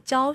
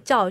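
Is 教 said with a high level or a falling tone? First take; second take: high level; falling. First: The syllable has a high level tone. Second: The syllable has a falling tone. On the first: The noun carries a sense of action or process. The speaker calls it right. "而是讲成校外教学" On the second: The noun is heard as a static thing. The speaker calls it wrong. "大家讲没有讲成校外教学"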